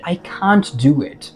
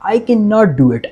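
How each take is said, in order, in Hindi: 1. "Can't" को एक छोटे, contracted शब्द की तरह बोला जाता है। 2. "Can not" को दो पूरे शब्दों की तरह बोला जाता है।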